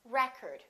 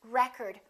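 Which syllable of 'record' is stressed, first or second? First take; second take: first; first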